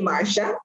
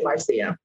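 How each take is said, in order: First: The name is said with an American pronunciation. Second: The name is said with a Caribbean pronunciation. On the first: The speaker calls it wrong. "most Americans say Marcia" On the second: The speaker calls it right. "I'm from the Caribbean, and say Marcia"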